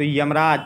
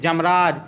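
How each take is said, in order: First: The word begins with a y sound. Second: The word begins with a j sound. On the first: The speaker calls it right. "तो यमराज" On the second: The speaker calls it wrong. "जैसे जमराज"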